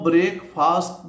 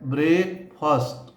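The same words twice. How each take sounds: First: The second syllable is a full 'fast'. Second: The second syllable is a reduced, weak vowel. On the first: The speaker calls it wrong. "इसको ब्रेकफास्ट नहीं बोलते ... फास्ट नहीं बोलते" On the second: The speaker calls it right. "इसका उच्चारण है ब्रेकफास्ट"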